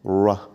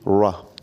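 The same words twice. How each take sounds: First: The r is said with slightly rounded lips. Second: The same.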